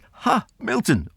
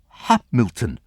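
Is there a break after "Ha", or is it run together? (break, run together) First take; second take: break; run together. First: There is an exclaimed break after "Ha". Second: It runs together as one word with no break. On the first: The speaker calls it right. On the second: The speaker calls it wrong.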